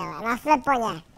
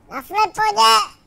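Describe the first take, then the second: First: Said in the usual way. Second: "sleponě" called out higher, louder and slower; louder emphatic repeat. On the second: Real, not acted. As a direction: shout the word sleponě, drawn out. (hlasitě a pomalu zvolané „sleponě“)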